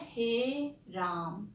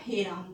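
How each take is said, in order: First: हे is drawn out long. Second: हे is said at normal length.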